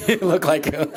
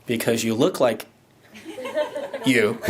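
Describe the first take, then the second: First: Laughing through the repeated line; giggling echo of own words. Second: Said in the usual way. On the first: Real, not acted.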